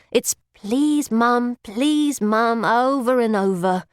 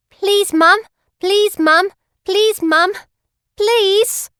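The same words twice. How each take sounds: First: Said in the usual way. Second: High, loud, rising beggar's whine; begging plea. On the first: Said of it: "You just got to remember". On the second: Acted. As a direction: plead over and over, each "please" climbing higher. Begging lady outside bakery.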